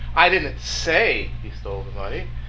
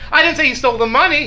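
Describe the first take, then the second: First: The word "say" carries the main stress. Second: The word "money" carries the main stress. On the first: It was only hinted at, not said outright. "I insinuated it" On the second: He stole something other than the money.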